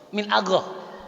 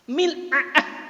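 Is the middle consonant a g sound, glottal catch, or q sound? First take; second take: g sound; glottal catch. First: The middle consonant is a voiced g-like sound. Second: The middle consonant is a glottal catch. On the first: This is the Saudi form. "Orang Saudi kira-kira gimana bacanya?" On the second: This is the Egyptian form. "Kalau Mesir mil'a'ah"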